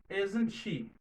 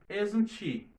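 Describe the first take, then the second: No difference in how they are said.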